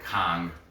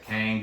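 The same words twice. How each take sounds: First: The vowel sounds like the one in father. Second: The vowel sounds like the one in cat. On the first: This is how the name is said in Korea. "It's a ah over in Korea" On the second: This is how Americans say the name. "you put the ang, that's a American accent"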